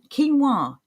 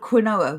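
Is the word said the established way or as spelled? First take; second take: established; spelled. First: It is said the established, accepted way. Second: It is said the way it is spelled. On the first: The speaker calls it right. "I'm surprised you were able to say it properly" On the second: The speaker calls it wrong. "the first time I saw it written down, I thought it was called quinoa"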